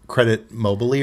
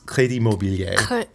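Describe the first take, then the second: First: It is said with an American English accent. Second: It is said with a French accent. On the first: "if I was trying to say this in American English" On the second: "But it's"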